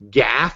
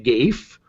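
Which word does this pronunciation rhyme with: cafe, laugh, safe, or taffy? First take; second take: laugh; safe. First: It rhymes with laugh, one short syllable. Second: It rhymes with safe, with a long vowel. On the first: "as in laugh" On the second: "rhyme it with safe"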